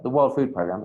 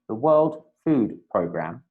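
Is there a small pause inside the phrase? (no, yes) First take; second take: no; yes. First: The phrase runs on without any pause. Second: A tiny pause breaks up the phrase. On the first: The speaker calls it wrong. "It's not the World Food Programme" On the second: The speaker calls it right. "There's a little pause there to make it more obvious"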